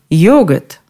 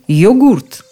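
First: The stress is on the first syllable. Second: The stress is on the second syllable. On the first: "ударение на «о»" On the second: "ударение на последнем слоге"

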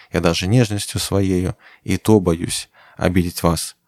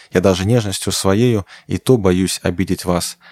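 Both takes have the same delivery.

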